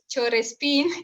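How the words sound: It is said with a Spanish accent. This is how the Spanish speakers said it.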